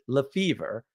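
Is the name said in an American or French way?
American. The name is said with American pronunciation. This marks the family as American now. The speaker calls it right. "we pronounce it Lefevre because that's the American way"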